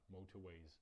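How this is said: The r after motor is dropped. "Britové by se toho rozbavili a řekli by motorways"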